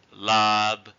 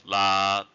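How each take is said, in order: First: "lab" with the final b audibly released; released final consonant. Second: "la" drawn out, lips closing without release; unreleased final consonant. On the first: Teacher showing a beginner's mistake, "lab" with released b. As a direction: let the b at the end of "lab" sound out. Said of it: "instead of doing it like a unreleased". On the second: Teacher showing the correct way, "la" with unreleased stop. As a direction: hold "la" long, stop the end silently. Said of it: "like a unreleased consonant". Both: Shown as a demonstration.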